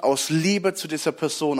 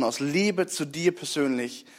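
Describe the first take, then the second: First: Said in the usual way. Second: Slower, softer on Liebe, voice falling; heartfelt personal appeal, slowing down; tender. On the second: Shown as a demonstration. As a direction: lean in gently on aus Liebe zu dir persönlich. Repeated phrase, second softer.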